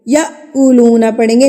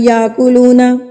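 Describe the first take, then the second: First: A sharp glottal catch comes before the k. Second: It flows smoothly with no catch before k. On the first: The speaker calls it right. "झटका दे के पढ़ेंगे" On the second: The speaker calls it wrong. "ना कि"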